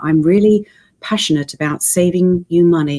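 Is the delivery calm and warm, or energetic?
calm. It is said in a calm, warm, reassuring way. The speaker wants to be trusted. "he makes you feel warm and trusted and assured"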